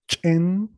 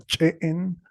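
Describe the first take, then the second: First: The vowel is said once, without a break. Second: The vowel is broken and said again.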